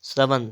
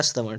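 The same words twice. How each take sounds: First: श्रवण ending in dental n; plain n closing श्रवण; wrong pronunciation. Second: श्रवण ending in retroflex ṇ; correct pronunciation. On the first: Teacher reading the error, श्रवण with dental n. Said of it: "हो जाएगा आपका". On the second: Teacher correcting, श्रवण with retroflex ṇ. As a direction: flap the end of श्रवण. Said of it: "क्या हो जाएगा आपका". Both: Shown as a demonstration.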